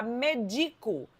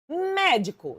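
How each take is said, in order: First: "medico" said slowly as me-DI-co; stress moved to DI. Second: "Médico" pitched high on the first syllable; stress on MÉ. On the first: Teacher showing the verb form, "medico" stressed on DI. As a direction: stress "medico" on the middle syllable DI. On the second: Teacher reading out the accented word, "Médico" stressed on MÉ. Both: Shown as a demonstration. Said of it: "se eu tirar o acento".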